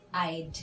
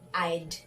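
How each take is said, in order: First: The words are shortened into one syllable. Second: The same.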